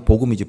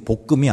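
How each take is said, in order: First: The second syllable starts with a vowel sound. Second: The second syllable starts with a g sound. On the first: The speaker calls it right. "발음이 복음이지" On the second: The speaker calls it wrong. "복금이 아니에요"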